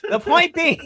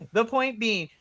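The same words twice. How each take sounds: First: Higher, louder repeat to regain the floor; insistent. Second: Slow, laughing repeat. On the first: Host raising her voice to get back on track, insistent. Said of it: "But the point being". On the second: Host laughing as she restarts her point, slowly. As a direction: chuckle through the restart. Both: Real, not acted.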